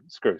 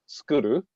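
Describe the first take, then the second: First: It is said as a single English syllable. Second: It is said with added vowels, Japanese style. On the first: "the word screw" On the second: "a Japanese pronunciation of this"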